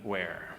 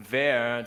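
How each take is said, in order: First: "where" said plainly in English, dropping low and soft. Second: "wer" said the German way, like English vair, meaning who. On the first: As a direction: give "where" its English sound. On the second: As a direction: give "wer" its German vowel. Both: Shown as a demonstration. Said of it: "does not mean".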